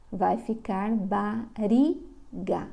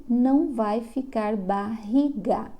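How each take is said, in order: First: Bariga with a single tapped r, said very slowly; weak R. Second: Barriga with the strong, throaty R, said slowly. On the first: (bariga com r fraco, bem devagar) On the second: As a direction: say barriga with the double-R sound, slowly. (barriga com R forte, falado devagar) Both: Shown as a demonstration.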